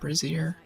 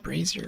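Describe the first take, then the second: First: The word sounds like the word brassiere. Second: The word does not sound like brassiere. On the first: The speaker calls it wrong. "not brazier. I think brazier is underwear" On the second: The speaker calls it right. "I think it's brazier"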